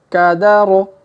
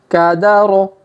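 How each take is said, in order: The two takes are said the same way.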